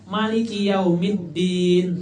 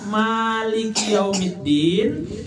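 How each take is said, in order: First: The first vowel of Maliki is kept short. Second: The first vowel of Maliki is held long. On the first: "baca handap" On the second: "membaca panjang"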